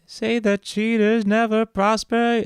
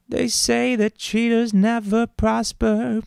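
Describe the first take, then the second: First: Villain voice. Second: Demon voice. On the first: Villain voice line for game. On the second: Demonic voice line. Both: Acted.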